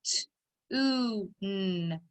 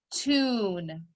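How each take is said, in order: First: "T-oo-n" sound by sound: t, long oo, n; tapped-out sounds. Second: Said in the usual way. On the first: Shown as a demonstration. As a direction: tap out "T-oo-n" slowly, each sound apart. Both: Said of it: "Tap it out".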